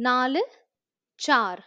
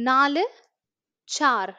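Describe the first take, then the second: No difference in how they are said.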